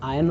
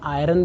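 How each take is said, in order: First: The word is said without an R sound. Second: The word is said with an R sound. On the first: The speaker calls it right. "इसका उच्चारण आयन होता है" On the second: The speaker calls it wrong. "आयरन भी लोग बोलते हैं लेकिन वो गलत है"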